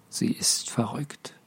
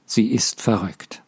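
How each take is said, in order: First: Whisper. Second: Said in the usual way. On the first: Acted. Unspoken look between men.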